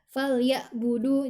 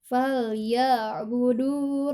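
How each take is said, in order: First: The 'ain' sound is cut off abruptly. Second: The 'ain' sound is pressed and drawn out smoothly. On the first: The speaker calls it wrong. "Jadi jangan dihentak. Jangan fal ya, fal ya budu. Nah, itu tidak tepat" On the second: The speaker calls it right. "yang tepat itu fal ya ditekan, dialirkan"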